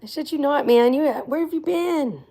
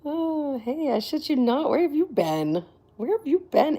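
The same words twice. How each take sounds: First: High, eager welcome back; excited greeting. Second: High, bright hello to a returning fan; excited greeting. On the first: Streamer welcomes McGilla back, excited and high. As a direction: call out happily to a long-lost friend. Greeting the same viewer again. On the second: Streamer greets returning viewer McGilla, excited and high. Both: Real, not acted.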